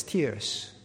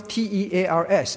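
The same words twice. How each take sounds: First: Tears said as tiːrz, rhyming with fears; pronounced like crying. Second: Tears said as tɛrz, like ripping paper; pronounced like rip. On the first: Preacher giving the right reading, tears said as tiːrz. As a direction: say tears with a long ee, as in weeping, slowly. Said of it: "now you pronounce it as tears". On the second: Preacher showing the wrong reading, tears said as tɛrz. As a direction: say tears with the vowel of care, as in to tear. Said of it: "don't pronounce T E A R S as tears". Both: Shown as a demonstration.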